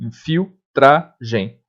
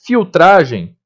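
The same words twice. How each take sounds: First: Filtragem said very slowly, fil-tra-gem; slow syllable demo. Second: Said in the usual way. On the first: Shown as a demonstration. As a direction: stretch Filtragem for the class. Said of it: "o L se separa do T".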